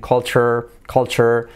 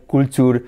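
First: "culture" as "KOL-cher", like Spanish "colcha"; English pronunciation. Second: "Culture" as "kool-TOOR", with Spanish u sounds; non-native "Culture" with oo vowels; Spanish-style pronunciation. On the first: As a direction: say "culture" with a ch in the middle. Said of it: "acuérdate de la colcha". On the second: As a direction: read "Culture" as it is spelt. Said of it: "la diferencia de cómo suenan". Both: Shown as a demonstration.

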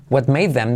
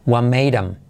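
First: "What made them" with the TH fully said; "What made them" pronounced carefully, word by word; full form them. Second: "What made 'em" with the D flapped, TH dropped; "What made 'em" with T dropped and "'em" unstressed; reduced 'em. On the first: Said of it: "En vez de decir". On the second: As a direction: run "made 'em" together like a native. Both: Shown as a demonstration.

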